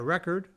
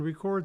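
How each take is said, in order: First: The stress is on the first syllable. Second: The stress is on the last syllable. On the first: It is a noun. "You can buy a record" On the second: It is a verb. "you can record something"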